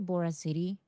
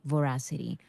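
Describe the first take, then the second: First: It is said as two words, Bora City. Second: It is said as one word rhyming with veracity. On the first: The name is heard as a city called Bora. "I say Bora City" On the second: The name is meant as a play on veracity. "it was supposed to be Voracity"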